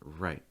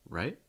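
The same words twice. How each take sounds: First: The pitch falls only. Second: The pitch rises only. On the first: The speaker is being serious. "if you just use the fall" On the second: The speaker is asking for confirmation. "if you use a rise"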